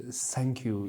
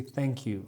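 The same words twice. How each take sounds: First: "thank you" with an s for the th, "sank you"; imitated mispronunciation. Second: Tongue between the teeth on the th of "thank you"; corrected pronunciation. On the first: Friend quoting his old mistake, "thank you" said as "sank you". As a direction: start "thank" with a hissed s instead of th. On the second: Retold or imitated. Friends correcting his English, "thank you" with a proper th. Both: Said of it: "You say thank you".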